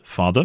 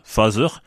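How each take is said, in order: First: The middle consonant sounds like a d. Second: The middle consonant sounds like a z. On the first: The speaker calls it right. "la bonne prononciation anglaise de ces mots est" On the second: The speaker calls it wrong. "on entend trop souvent un Z alors qu'on attend un D"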